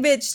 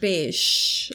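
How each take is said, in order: First: The word ends with a 'ch' sound. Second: The word ends with an 'sh' sound. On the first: "I like saying bitch too" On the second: "More like bish. Like B-I-S-H"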